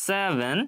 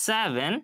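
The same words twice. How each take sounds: The two takes are said the same way.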